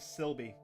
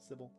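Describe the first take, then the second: First: An extra L sound follows the first vowel. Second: No L sound follows the first vowel. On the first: The speaker calls it wrong. "I was adding an extra L into the name. So I'm saying Sylvie" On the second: The speaker calls it right. "There's no L after the Y"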